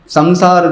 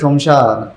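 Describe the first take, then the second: First: It begins with s and a nasal first syllable. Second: It begins with sh, with sh in the middle. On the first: "सम जो है वो नासिका से बोला है" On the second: "Bengali बोलेंगे तो शमशार"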